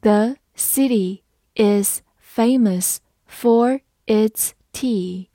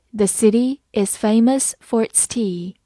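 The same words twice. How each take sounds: First: Word by word, spaced out; very slow, deliberate model sentence; slow reading. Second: Said in the usual way. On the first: Shown as a demonstration. Teacher reads the example for learners, slowly word by word. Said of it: "好，慢读一遍". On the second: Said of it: "慢读一遍".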